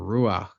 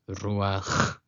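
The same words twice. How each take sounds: First: The final sound is a soft, breathy h. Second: The final sound is a rough throat sound. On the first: The speaker calls it wrong. "a lot of people say ruach" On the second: The speaker calls it right. "but it's ruach"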